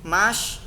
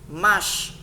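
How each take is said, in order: No difference in how they are said.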